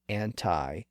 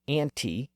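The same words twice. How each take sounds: First: The final vowel sounds like 'eye'. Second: The final vowel sounds like 'ee'. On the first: "may eventually give way to anti" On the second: "pronunciations like anti"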